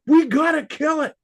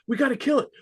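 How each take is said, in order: First: It is said forcefully, with lots of energy. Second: It is said calmly, without force.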